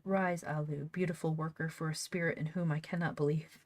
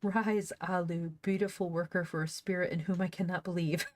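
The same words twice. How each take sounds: First: Said in the usual way. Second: Mock-regal retake fighting a laugh; grand empress. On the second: Shown as a demonstration. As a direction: play up the empress's command, lightly hammed. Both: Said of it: "that was so funny".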